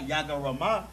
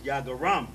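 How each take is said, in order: First: The word ends with an extra final vowel. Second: The word ends on a consonant, no vowel. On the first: The speaker calls it wrong. "It's not Yagarama" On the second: The speaker calls it right. "but it's Yagaram"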